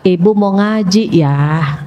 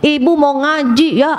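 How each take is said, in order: First: It is said in a soft, gentle tone. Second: It is said in a harsh, snappy tone.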